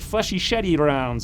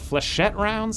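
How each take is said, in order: First: Flechette is stretched into four syllables. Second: Flechette is said with two syllables.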